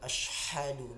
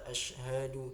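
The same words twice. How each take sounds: First: The h is harsh and breathy. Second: The h is deep and heavy in the throat. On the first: The speaker calls it wrong. "bukan ashhadu" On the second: The speaker calls it right. "Ashhadu alla ashhadu"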